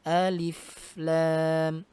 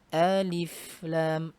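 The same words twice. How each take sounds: The two takes are said the same way.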